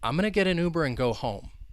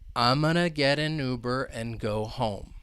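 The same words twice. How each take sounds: First: The sentence is spoken at a faster pace. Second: The sentence is spoken slowly and carefully. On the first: "if we were to say this a little faster" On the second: "So I'll say it slowly"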